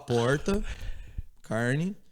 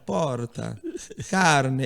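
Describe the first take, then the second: First: It is said with a plain Brazilian accent. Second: It is said with an Italian accent.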